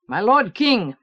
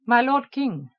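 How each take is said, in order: First: Firm, loud soldierly address; gruff soldier voice. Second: Alien voice. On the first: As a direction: greet the king firmly. General greets the king. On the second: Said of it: "he said in an alien voice". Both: Acted.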